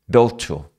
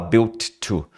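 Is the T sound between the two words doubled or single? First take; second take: single; doubled. First: The two words share a single T sound. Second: Each word gets its own separate T sound. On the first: The speaker calls it right. "Na hora de falar, você vai falar assim. ... Um T só" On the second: The speaker calls it wrong. "Não tem como falar built to"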